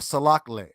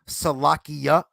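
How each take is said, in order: First: The two words are kept apart as separate words. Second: The two words run together as one word. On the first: The speaker calls it right. "salak is its own word and le is its own word" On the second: The speaker calls it wrong. "you hear them say salakia, but that's actually incorrect"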